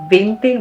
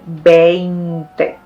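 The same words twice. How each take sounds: First: Some vowels are reduced or run together. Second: Every vowel is sounded fully and clearly. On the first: The speaker calls it wrong. "we don't say veinte" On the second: The speaker calls it right. "we say veinte"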